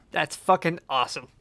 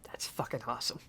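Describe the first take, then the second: First: Said in the usual way. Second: Awed whisper, much softer; whispering to himself, moved by the song. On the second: Real, not acted. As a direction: breathe it out in quiet awe. Moved, reacting under his breath.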